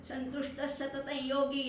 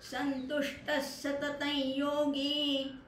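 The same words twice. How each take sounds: First: The phrase is rushed without lengthening vowels. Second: The long vowel in yogi is held longer. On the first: The speaker calls it wrong. "नुसतं पटकन ... असं नाही म्हणायचं" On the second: The speaker calls it right. "तो योगी आहे, तो दीर्घ आहे"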